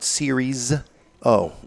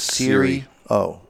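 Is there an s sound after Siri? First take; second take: yes; no. First: An s sound follows Siri. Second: No s sound follows Siri. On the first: The speaker calls it wrong. "I don't like when people add the S" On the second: The speaker calls it right. "It is Siri O"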